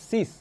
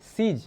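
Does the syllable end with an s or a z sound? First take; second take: s; z. First: The syllable ends with a hissing s sound. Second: The syllable ends with a buzzing z sound. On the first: The speaker calls it wrong. "Not সিস" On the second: The speaker calls it right. "সিজ, not সিস"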